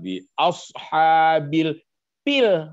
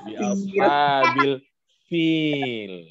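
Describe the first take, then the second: First: The last word starts with a P sound. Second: The last word starts with an F sound. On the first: The speaker calls it wrong. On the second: The speaker calls it right.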